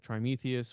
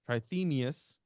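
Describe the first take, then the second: First: The second consonant is an m sound. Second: The second consonant is a th sound. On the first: The speaker calls it wrong. "I always say Trimethius" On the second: The speaker calls it right. "Johannes Trithemius"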